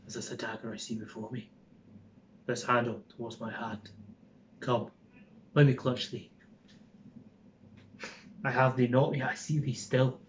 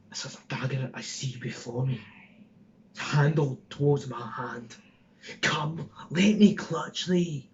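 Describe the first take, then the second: First: Fast, softer whisper in a gentle Scottish accent; a milder Scottish medium, hushed and quick. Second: Put-on rough Glaswegian street accent, lightly done; hard Glasgow accent, slowing at the end; Glaswegian Ned. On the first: Shown as a demonstration. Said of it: "it's still Scottish, but it's not". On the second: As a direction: Glaswegian thug threatening a stabbing. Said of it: "I was pushing a Glaswegian out".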